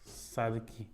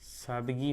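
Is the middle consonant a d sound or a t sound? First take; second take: t; d. First: The middle consonant is a voiceless t. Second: The middle consonant is a voiced d. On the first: "उसका अघोष करके बोलते हैं" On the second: "जैसे सादगी होगी"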